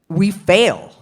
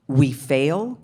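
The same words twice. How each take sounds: First: It is said as a firm exclamation. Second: It is said as a rising question.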